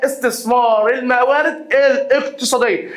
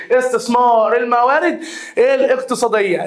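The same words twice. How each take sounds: First: Slow, deliberate read of استثمار الموارد الاقتصادية; slow dictation for note-taking. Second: Said in the usual way. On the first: Shown as a demonstration. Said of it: "repeated slower for dictation". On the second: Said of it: "repeated at normal pace".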